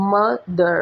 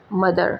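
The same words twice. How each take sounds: First: "mother" broken in two, mo - ther; split into syllables. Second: Said in the usual way. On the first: Shown as a demonstration. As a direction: stop briefly between the syllables of "mother". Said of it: "you would stop a little". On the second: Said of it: "then you would say".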